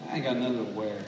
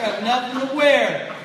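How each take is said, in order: First: Low, soft, mock-whiny moan; mock whine. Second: Mock complaint. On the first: Preacher mimicking a closet full of clothes, low mock whine. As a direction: sulk it out under your breath. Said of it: "you're like". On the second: Preacher acting out a churchgoer's closet gripe, exasperated mock complaint. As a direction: throw it up as a fed-up gripe. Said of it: "I got nothing to wear here".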